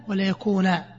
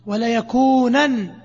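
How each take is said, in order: First: يكونا ending in a long a, no nun; pausal form. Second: يكونا said yakunan, slowly, with a final nun; يكونا with its nun, connected-speech form; with the nun sounded. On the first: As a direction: stop on يكونا as yakuna. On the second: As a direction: stretch out يكونا ending in -nan. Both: Shown as a demonstration. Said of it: "يوقف عليها بالألف".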